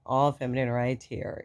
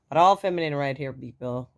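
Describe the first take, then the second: First: Said in the usual way. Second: Loud, fast playful claim; playful boast. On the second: Real, not acted. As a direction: tease the listeners. Joking about her deep voice.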